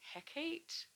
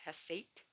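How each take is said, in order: First: The middle consonant is a k sound. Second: The middle consonant is an s sound. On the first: "but apparently it's Hecate" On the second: "I thought the C was pronounced like an S"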